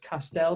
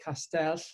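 First: The double L is a plain English L. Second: The double L is a hissing, lisp-like Welsh sound. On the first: It suits listeners who are not Welsh speakers. "I normally pronounce this Castell because most of the people I deal with are like English" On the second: It is the original Welsh form of the word. "the normal, the Welsh word version of it"

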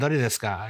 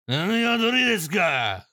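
First: It is said in a calm, ordinary way. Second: It is an angry, drawn-out delinquent yell.

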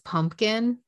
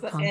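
First: The middle consonant is an M sound. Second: The middle consonant is an N sound. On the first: The speaker calls it right. "Because it's pumpkin" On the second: The speaker calls it wrong. "It's not pumpkin"

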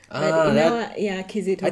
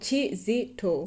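First: The name begins with a k sound. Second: The name begins with a ch sound.

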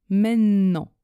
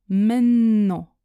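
Both takes have the same delivery.

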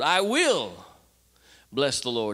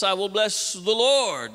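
First: The stress is on "will". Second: The stress is on "Lord".

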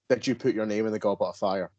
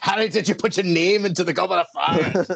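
First: The question is asked calmly and quietly. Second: The question is shouted loudly and aggressively.

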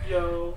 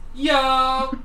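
First: It is said at normal, quieter volume. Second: It is said very loudly.

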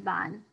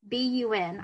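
First: It is spoken as a single word. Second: It is spelled out letter by letter. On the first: The speaker calls it wrong. "That's the last time any of you say bun" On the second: The speaker calls it right.

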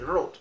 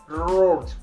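First: The R is soft with little vibration. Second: The R has a long, strong vibration. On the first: "in Indian English, it's simply road" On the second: "not like road, that means a long vibration, a huge vibration in American accent"

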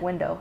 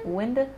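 First: The final vowel is a full 'oh' sound. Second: The final vowel is a reduced 'uh' sound. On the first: "Instead of window" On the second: "I've caught him say "winda""

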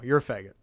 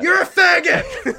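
First: It is said at a normal speaking volume. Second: It is yelled loudly.

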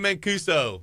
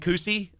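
First: The name ends in an oh sound. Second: The name ends in an ee sound. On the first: The speaker calls it right. "But yeah" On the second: The speaker calls it wrong. "What are the ways they mispronounce it?"

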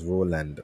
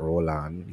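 First: The second syllable sounds like 'land'. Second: The second syllable sounds like 'on'. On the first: The speaker calls it right. "My name is Roland" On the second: The speaker calls it wrong. "Not R-O-L-L. -on"

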